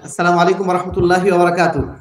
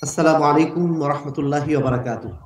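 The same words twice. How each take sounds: First: It is said in a loud, strong voice. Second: It is said at normal, softer volume.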